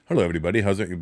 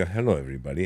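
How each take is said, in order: First: Stiff Indian-accent greeting. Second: Lower, softer Indian-accent greeting. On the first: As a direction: do an Indian voice, held straight. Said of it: "can't just do an Indian voice, like, and be straight". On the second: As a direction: Indian accent with the whole body moving. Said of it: "your whole body". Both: Shown as a demonstration.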